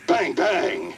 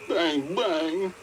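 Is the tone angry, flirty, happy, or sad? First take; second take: angry; sad. First: It is said in an angry tone. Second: It is said in a sad tone.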